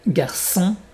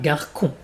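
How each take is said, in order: First: The middle consonant is a hissing S sound. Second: The middle consonant is a hard K sound. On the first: The speaker calls it right. "Garçon et pas garcon" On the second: The speaker calls it wrong. "et pas garcon"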